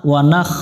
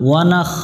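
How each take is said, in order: No difference in how they are said.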